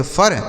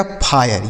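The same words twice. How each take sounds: First: फर as one syllable, like 'fur'; mispronounced फर. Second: फायर with an 'aay' glide before r; correct pronunciation फायर. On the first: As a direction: say फर wrongly, short uh before r. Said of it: "ऐसे नहीं पढ़ा जाएगा". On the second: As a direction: say फायर with i opened to aay, falling in pitch. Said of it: "इसे क्या पढ़ा जाएगा". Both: Shown as a demonstration.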